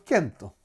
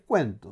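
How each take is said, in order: First: It begins with a plain k sound. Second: It begins with a kw sound. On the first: This is how a modern reader would read the spelling. The speaker calls it wrong. "Hoy día, si nosotros nos enfrentamos a esa palabra, diríamos Kento" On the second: This is how people of that era said the word. The speaker calls it right. "en esa época, la palabra, como la dicen ellos, es cuento"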